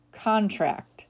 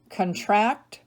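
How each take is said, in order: First: CON-tract, first syllable stressed, falling. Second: Kun-TRACT, second syllable stressed, rising. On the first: Teacher giving other pronunciation, contract as CON-tract. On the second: Teacher reading word list to students, contract as kun-TRACT. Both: Shown as a demonstration. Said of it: "give you both pronunciations".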